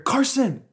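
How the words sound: The name is yelled out loudly.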